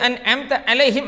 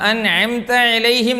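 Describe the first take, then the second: First: The consonant is a light glottal catch. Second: The consonant is a deep, squeezed throat sound. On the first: The speaker calls it wrong. "ഹംസയിലേക്കൊക്കെ പോകേണ്ടതേ" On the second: The speaker calls it right. "ഐൻ എന്ന ഹർഫ്"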